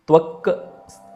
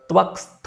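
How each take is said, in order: First: The word parts are said as separate pieces. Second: The word parts are merged into one form.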